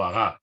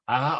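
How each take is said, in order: First: "aga" stressed as a-GA; stress on last syllable. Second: "Aga" stressed as A-ga; stress on first syllable. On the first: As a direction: land on the final A of "aga". ("aga" aguda, con acento en la última sílaba) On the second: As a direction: lean on the opening A of "Aga". ("Aga" llana, con acento en la primera sílaba) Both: Shown as a demonstration. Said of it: "Me da igual, vale las dos".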